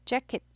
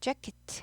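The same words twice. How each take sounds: First: The final t is barely heard. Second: The final t is clearly released. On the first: It is the usual everyday way. "jacket 하죠 보통" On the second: It is made easier for listeners to catch. "일부러 트를 좀 들리게"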